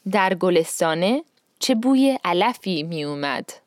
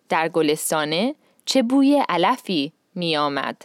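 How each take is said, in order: First: The last word's middle vowel is 'u'. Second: The last word's middle vowel is 'o'. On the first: This is how it is said in conversation. "So in conversation, this sentence would be" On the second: This is the formal form used in the poem. "he has it as the formal version"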